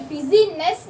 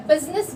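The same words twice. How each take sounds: First: बिजीनेस with the middle i sounded as बि-जी-नेस; wrong spelled-out i. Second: बिजनेस in two syllables, बिज-नेस; silent i. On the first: Teacher to students, wrong spelling pronunciation. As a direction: stretch बिजीनेस into three syllables as the mistake. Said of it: "बिजनेस बोला है". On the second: Teacher to students, correct silent-i version. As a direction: clip बिजनेस to biz-ness. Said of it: "हमने बिजीनेस नहीं बोला". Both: Shown as a demonstration.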